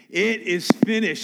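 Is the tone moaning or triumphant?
triumphant. It is said in a triumphant, victorious tone.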